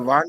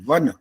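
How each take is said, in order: First: The vowel after the v is drawn out long. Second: The vowel after the v is kept short. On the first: The speaker calls it wrong. "वान नहीं बोल सकते" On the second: The speaker calls it right.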